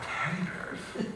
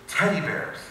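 First: Incredulous. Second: Said in the usual way. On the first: Retold or imitated. He doubts what he heard.

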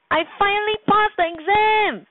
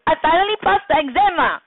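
First: High, bursting with joy; excited exclamation. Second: Fast, pushy and insistent; demanding. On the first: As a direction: shout the good news up high. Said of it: "Rajan exclaimed". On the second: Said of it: "what is a demanding way of speaking". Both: Shown as a demonstration.

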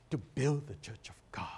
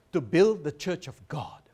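First: Breathy whisper of the same line; hushed, reverent repetition; whispered in awe. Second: Proud declaration. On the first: Acted. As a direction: whisper it as if moved. Repeats the reply in awe. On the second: Retold or imitated. Student's bold reply, quoted.

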